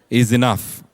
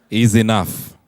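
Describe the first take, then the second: The two takes are said the same way.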